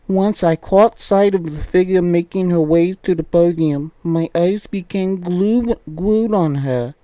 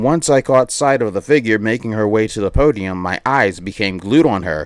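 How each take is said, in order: First: It is read in a cutesy uwu voice. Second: It is read in a normal voice.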